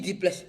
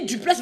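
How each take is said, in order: First: Duplex said as di-plex, laughing and softer; mock their di-plex with a laugh; mocking how others say duplex; mocking mispronunciation. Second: Duplex with a clear French u, dy-plex; saying duplex the correct way; proper pronunciation. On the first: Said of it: "Quand je dis duplex". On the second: Shown as a demonstration. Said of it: "vous dites duplex".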